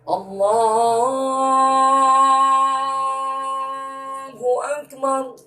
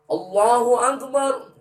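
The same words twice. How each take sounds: First: The word Allah is drawn out long. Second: The word Allah is said short.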